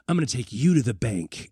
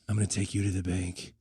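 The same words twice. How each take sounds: First: It is delivered with theatrical, dramatic emphasis. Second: It is delivered flatly with no change in tone. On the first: The line is played up as a clever one-liner. "it's not even like how like Schwarzenegger or, or, or whoever would say it" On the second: The line is said with a straight face. "No, it's just"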